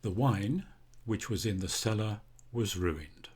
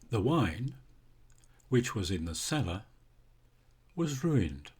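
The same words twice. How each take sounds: First: It is said smoothly without pauses around the clause. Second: It is said with pauses before and after the clause. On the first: Only some of the wine was ruined. "Let's look first at a defining relative clause" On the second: All of the wine was ruined. "I say that in a different way because we have two commas"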